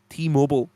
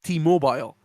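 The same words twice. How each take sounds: First: Mobile is pronounced with an American accent. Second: Mobile is pronounced with a non-American accent. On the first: "I said it like you Americans say mobile" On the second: "I would have said T-Mobile"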